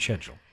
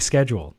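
First: It is said in a British-sounding style. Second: It is said in a plain American style. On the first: The speaker calls it right. "I prefer to go" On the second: The speaker calls it wrong. "I don't like to say schedule"

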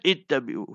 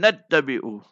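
First: It starts fresh after a stop, beginning 'i'. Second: It is linked to the preceding word, starting 'a'. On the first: The reading stops after mursaleen and restarts. "You want to stop mursaleen, then ittabi'u ... So you will read it as ittabi'u" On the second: The reading continues without a stop after mursaleen. "If you want to join it, so you will read mursaleen attabi'u"

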